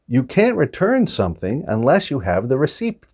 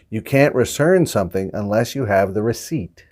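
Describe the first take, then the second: First: The P sound in receipt is pronounced. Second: The P sound in receipt is silent. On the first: The speaker calls it wrong. "the word that we're mispronouncing, or I'm mispronouncing here, is receipt" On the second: The speaker calls it right. "that P is silent. But this should sound like"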